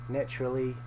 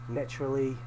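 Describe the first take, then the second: No difference in how they are said.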